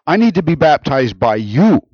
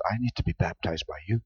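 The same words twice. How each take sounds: First: Louder, higher, insistent objection; emphatic protest. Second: Much softer and lower; humble admission. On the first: John objecting to baptizing Jesus, emphatic protest. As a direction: protest it with force, stressing the need. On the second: John owning his sinfulness, quiet admission. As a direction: drop to a quiet, humble confession. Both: Acted.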